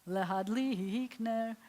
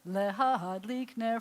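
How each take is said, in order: First: The stress falls near the end of the word. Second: The stress falls near the start of the word.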